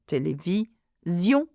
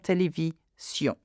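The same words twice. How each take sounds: First: The consonant before -ion sounds like z. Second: The consonant before -ion sounds like s. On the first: The speaker calls it right. "when we have a z sound" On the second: The speaker calls it wrong. "and not"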